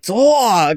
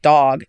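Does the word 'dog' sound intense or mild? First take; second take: intense; mild. First: The word sounds strong and very intense. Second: The word sounds plain and mild. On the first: "it ends up coming out like dog, like, very intense" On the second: "I just say, like"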